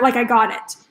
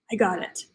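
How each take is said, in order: First: Said in the usual way. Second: Soft, low, hushed "I got it"; quiet realization. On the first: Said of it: "Like, I act". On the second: Retold or imitated. Host reliving her breakthrough on the bed, hushed and low. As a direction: breathe it out as the idea lands. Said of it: "Like, I act, like, I got it".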